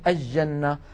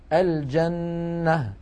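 First: The L is assimilated into a doubled J. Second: The L is pronounced clearly before the J. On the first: The speaker calls it wrong. "كثيرا ما نسمع بعض الناس يقولون الجنة ... هذا لا يصح" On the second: The speaker calls it right. "لكن الفصحى أن نقول"

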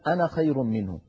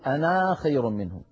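First: The final vowel of ana is short. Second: The final vowel of ana is long. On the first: The speaker calls it right. "كلما رأينا كلمة أنا فإن ألفها لا تنطق عند الوصل" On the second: The speaker calls it wrong. "ولا نقول"

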